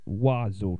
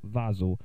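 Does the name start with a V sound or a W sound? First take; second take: W sound; V sound. First: The name begins with a W sound. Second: The name begins with a V sound. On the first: The speaker calls it right. "That's how you pronounce it" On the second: The speaker calls it wrong.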